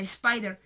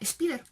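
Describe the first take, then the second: First: The first vowel sounds like English 'eye'. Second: The first vowel sounds like Spanish 'ee'. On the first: "realmente la pronunciación sea spider" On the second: "con nuestra pronunciación española sería spider"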